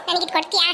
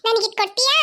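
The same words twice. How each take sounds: First: Lower, coaxing plea on ಕೊಡ್ತೀಯಾ; wheedling child asking for the fish; pleading. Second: Said in the usual way. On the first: Acted. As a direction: sweet-talk her into giving it. Begging friend for fish.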